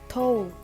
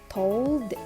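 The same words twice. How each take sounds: First: The final d sound is dropped. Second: The final d sound is clearly pronounced. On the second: "As in standard American, we say told. The we hear the sound"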